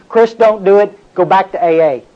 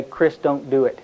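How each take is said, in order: First: Firmer inner voice. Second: Low murmured warning voice; soft voice in his head telling Chris to stop; quiet inner voice. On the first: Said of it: "I heard". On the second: Voice in his head warning him, murmured. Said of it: "I hear this voice say". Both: Retold or imitated.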